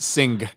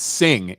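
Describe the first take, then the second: First: The word ends with a hard G sound. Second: The word ends softly with no hard G. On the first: The speaker calls it wrong. "It's not sing" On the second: The speaker calls it right. "It's it's it's sing"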